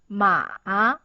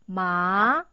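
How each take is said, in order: First: The pitch dips down and then rises. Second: The pitch rises from middle to high. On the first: "you have to go down firstly and go up" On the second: "It's an up tone. You could see it's from line three to line five"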